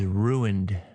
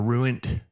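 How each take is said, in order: First: The word ends with a D sound. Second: The word ends with a T sound. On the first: The speaker calls it right. "It ends in a D" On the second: The speaker calls it wrong. "Some people can't say the E D"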